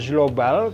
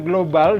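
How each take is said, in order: First: It begins with a soft j sound. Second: It begins with a hard g sound. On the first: The speaker calls it wrong. "bukan global" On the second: The speaker calls it right. "benar dibacanya global ... jadi ge, ikut ke yang berat"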